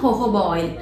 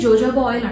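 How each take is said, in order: First: The word begins with an h sound. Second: The word begins with a j sound. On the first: The speaker calls it right. "Right pronunciation హోహోబా oil" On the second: The speaker calls it wrong. "జోజోబా oil అంటాం"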